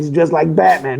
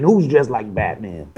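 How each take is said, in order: First: Said in the usual way. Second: Low, slow mafia goon; tough goon voice. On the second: Acted. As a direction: lean into a low slow tough-guy read. Mafia goon line re-enacted.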